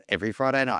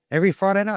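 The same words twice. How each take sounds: First: Flat confirming answer, pitch falling on "Friday"; plain confirming statement. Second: High rising question tune on "Every Friday night?"; "Every" lifted high and louder, asked with a rise; asking question. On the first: Answering Craig's question, calm falling confirmation. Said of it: "I said". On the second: Craig checking which night he plays, high rising question. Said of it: "He goes". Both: Retold or imitated.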